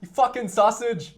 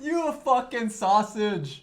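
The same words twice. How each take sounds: First: Paddy impression. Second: Put-on slow British accent, drawn out through laughter; laughing slow Paddy Pimblett impression. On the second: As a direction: stretch each word like the UFC fighter, laughing. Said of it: "Il dit ça, ça me fait trop rire".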